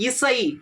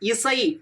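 First: The middle consonant is an 's' sound. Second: The middle consonant is an 's' sound.

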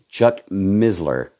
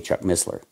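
First: The double S is said as a z sound. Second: The double S is said as an s sound. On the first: This is how the man himself said his name. "he always used the Z phrase" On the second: This is how others usually say the name. "We say Chuck Missler"

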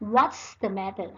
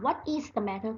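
First: 'What is' is contracted to 'what's'. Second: 'What is' is said as two full words. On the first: "นักเรียนก็อ่านตรงนี้ว่า" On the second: "ถ้านักเรียนอ่านว่า ... ก็ไม่ผิดนะคะ"

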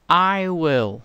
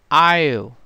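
First: It is said as two full words. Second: It is said as one contracted syllable.

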